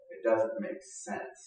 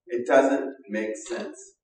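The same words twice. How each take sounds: First: Slow, breathy hush on "doesn't"; almost whisper it in awe; hushed wonder. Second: Very slow, rising on "doesn't"; slow emphasis. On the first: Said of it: "repeated line, first hushed". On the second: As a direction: spell it out word by word. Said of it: "repeated line, slow emphatic". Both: Shown as a demonstration.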